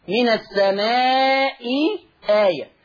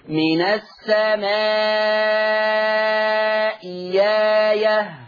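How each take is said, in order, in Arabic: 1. تُنطق الهمزة الثانية همزة وقف. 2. تُستبدل الهمزة الثانية بصوت ياء.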